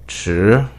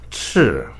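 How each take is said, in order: First: The pitch rises from middle to high. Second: The pitch falls sharply from high to low. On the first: It means late. "The second tone starts medium in tone and then reaches the peak" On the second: It means red. "It's sharp and strong. You could go all the way down to the bottom"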